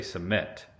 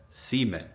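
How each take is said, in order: First: "cement" as suh-MENT, stressed on the second syllable; teacher's correct pronunciation. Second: "cement" as SEE-ment, stress on the first syllable; grandpa's Hoosier pronunciation. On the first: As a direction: weaken the first vowel of "cement" and stress MENT. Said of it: "She wanted him to say". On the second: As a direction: lean on a long "ee" in "cement". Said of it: "the way he said cement". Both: Retold or imitated.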